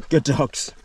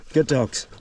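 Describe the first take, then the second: No difference in how they are said.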